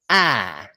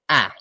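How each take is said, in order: First: The vowel is held long. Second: The vowel is cut short. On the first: "the long vowel is like this" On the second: "the short one, like this"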